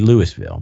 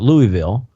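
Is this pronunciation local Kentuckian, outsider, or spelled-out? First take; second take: spelled-out; outsider. First: It is said as spelled, sounding out every letter. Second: It is said the way visitors from elsewhere say it. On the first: "but not Louisville ... it would never be Louisville" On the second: "people from outside of the Kentucky ... I call it Louisville"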